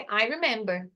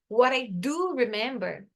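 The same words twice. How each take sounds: First: Said in the usual way. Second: Slow phrase with stress on "do"; emphatic DO. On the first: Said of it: "ele tá sem ênfase". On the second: Shown as a demonstration. Teacher shows students how the auxiliary adds emphasis, stressed DO. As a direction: lean on "do" in "what I do remember". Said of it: "trazer um ênfase".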